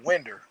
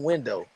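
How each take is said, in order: First: The word ends with an 'er' sound. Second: The word ends with an 'oh' sound. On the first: The speaker calls it wrong. "It's a winder" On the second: The speaker calls it right. "why is the E R on window?"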